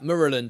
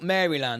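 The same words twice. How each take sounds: First: The name is run together and shortened. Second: The name is said fully, as spelled. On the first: This is how locals are said to say it. "Apparently, it's Monroe, Mer, Mer, Maryland, Maryland, or something like that" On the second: This follows the spelling of the name. "I go Maryland because it's it's spelt Maryland"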